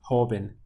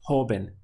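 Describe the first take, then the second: The two takes are said the same way.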